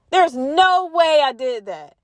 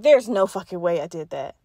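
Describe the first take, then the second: First: Slower and higher, each word drawn out in disbelief; a dazed, drawn-out denial; slow stunned denial. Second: Said in the usual way. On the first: Retold or imitated. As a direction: say it like it is sinking in. Realizing she did it.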